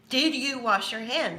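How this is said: It is asked in a very shrill, bossy voice.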